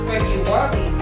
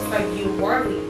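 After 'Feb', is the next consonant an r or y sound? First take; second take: r sound; y sound. First: Both r sounds are said as r sounds. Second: The first r sound becomes a y sound. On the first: "The second month of the year is February" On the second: "But it is often pronounced as February"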